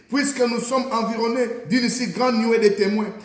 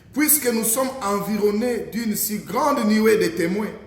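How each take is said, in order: Both takes have the same delivery.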